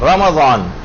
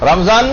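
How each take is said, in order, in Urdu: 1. m کے بعد 'a' مصوتہ ہے۔ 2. m کے بعد کوئی مصوتہ نہیں ہے۔ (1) "اس کے میم کے اوپر زبر لگائی" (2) "رمضان نہیں"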